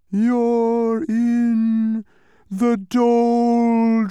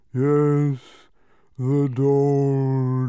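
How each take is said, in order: First: High, much louder, slow wailing creature voice; an unseen voice wailing at Milo from far away; distant wail. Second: Louder, slow, yawning creature voice; a second unseen creature yawning an answer; yawned. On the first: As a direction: stretch the doldrums into a long eerie wail. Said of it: "wailed a voice that sounded far away". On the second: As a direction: drag the doldrums out through a yawn. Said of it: "yawned another voice". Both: A narrator's reading.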